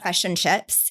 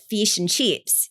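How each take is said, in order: First: It is said with a New Zealand accent. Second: It is said with an Australian accent. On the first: "like New Zealand, you'll say fish, like" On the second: "and Australians"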